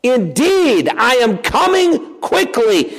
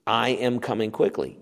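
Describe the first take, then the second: First: "Indeed" and "coming" pitched high and stretched out; emphatic declaration. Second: Said in the usual way. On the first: Shown as a demonstration. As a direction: proclaim it slowly, hitting "Indeed" and "coming" hard. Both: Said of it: "it provides emphasis for us".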